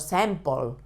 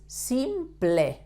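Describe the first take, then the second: First: The word ends with a dark 'pul' sound. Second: The word ends with a clear 'pleh' sound. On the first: The speaker calls it wrong. "Not like in English, that is pol" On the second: The speaker calls it right. "In Spanish, is simple"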